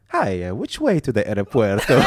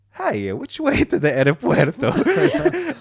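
First: A hammed-up Italian accent asking for the airport; mock Italian accent. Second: Slow, high, hammed-up Italian accent through laughter; mock Italian accent. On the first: Scammer asking the way to the airport, in a mock Italian accent. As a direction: play the lost Italian tourist with a put-on Italian accent. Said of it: "young Italian... typical Italian". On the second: Young Italian scammer asking for the airport, in a mock Italian accent. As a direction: ham up the Italian tourist line. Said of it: "typical Italian".

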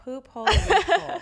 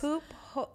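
First: Loud, high, laughing it out; laughing loud repeat. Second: Softly puzzled, repeating an odd phrase; quiet, unsure echo of a strange term. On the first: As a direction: burst out laughing on the phrase. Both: Real, not acted. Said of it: "wait, say".

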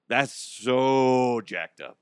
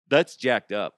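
First: Slow, leaning hard on "so"; "so" held long and heavy, the whole line slowed; drawn-out disbelief. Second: Said in the usual way. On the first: Real, not acted. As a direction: stretch out "so" in disbelief. Repeats the phrase slower.

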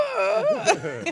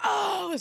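First: Put-on very high, loud startled baby wail; imitated baby cry. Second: High-pitched imitated fan's shout; retold game yell. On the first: Baby startled by parent's yelling, imitated cry. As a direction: mimic a scared baby's cry. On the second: Parent watching the game beside the baby, retold yell. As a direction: re-enact yelling at a big shot. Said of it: "what I was yelling about".

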